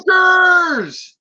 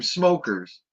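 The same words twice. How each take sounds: First: Huge high scream, pitch shooting way up; yelled warning. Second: Raised, louder call of the word; retold shout. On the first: Retold or imitated. Movie villagers warning of raiders with full-throated scream. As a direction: scream it as the alarm call. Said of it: "would yell and scream". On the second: Retelling the villagers' alarm in a raised call. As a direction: call it out a second time with less force. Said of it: "They'd scream".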